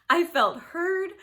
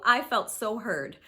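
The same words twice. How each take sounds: First: "heard" stretched out slow, pitched up and loud; emphatic, slow, higher and louder. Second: Said in the usual way. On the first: Real, not acted. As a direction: lean hard on "I felt heard". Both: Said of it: "I am telling you".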